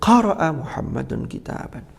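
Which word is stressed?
qara'a. The stress falls on the first word, qara'a. It answers what Muhammad did. "apa yang dilakukan Muhammad, maka tekanannya"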